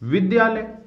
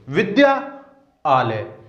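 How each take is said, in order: First: The vowels merge into one single word. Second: The two parts are said as separate words. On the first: "यदि दोनों वर्णों के मध्य संधि हो जाएगी तो शब्द क्या बन जाएगा?" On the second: "इसको अगर हम अलग अलग बोलेंगे तो कैसे बोलेंगे?"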